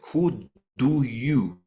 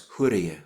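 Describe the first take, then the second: First: The d in do is a full, clear stop. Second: The d in do is a quick, light flap. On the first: The speaker calls it wrong. "It doesn't sound like d. It doesn't sound like who do you" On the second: The speaker calls it right. "It sounds who do you"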